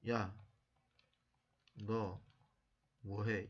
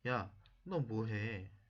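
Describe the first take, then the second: First: It sounds stilted, not like natural talk. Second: It sounds like natural, conversational talk.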